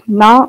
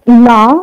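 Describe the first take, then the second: First: NA said on a low tone. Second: NA said on a high tone. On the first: Lecturer showing a Tibetan minimal pair, na on low tone. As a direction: keep the syllable na low in pitch. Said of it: "with a low tone". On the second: Lecturer showing a Tibetan minimal pair, na on high tone. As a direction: pitch the syllable na high. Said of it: "with high tone". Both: Shown as a demonstration.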